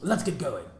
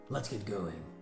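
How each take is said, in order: First: It sounds like Vegapunk's voice. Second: It is a deep voice meant for Jinbei.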